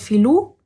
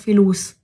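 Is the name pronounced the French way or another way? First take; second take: French; another way. First: The name is pronounced the French way. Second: The name is pronounced a non-French way. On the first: "wenn ich ihn französisch aussprechen würde" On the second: "Wenn ich jetzt aber das anders aussprechen würde"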